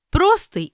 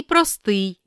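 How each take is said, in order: First: Простий as PRO-styi; first-syllable stress. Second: Простий as pro-STYI; last-syllable stress. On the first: Teacher reading double-stress words, first-syllable stress on Простий. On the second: Teacher giving the other variant, final stress on простий. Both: Shown as a demonstration. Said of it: "слова із подвійним наголосом".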